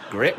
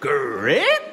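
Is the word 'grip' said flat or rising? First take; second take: flat; rising. First: The word is said flat, with no rise. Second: The word rises strongly, like a question. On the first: It is simply the name. "when said without any inflection" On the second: A question is being asked. "you'd have to put double interrogative inflection"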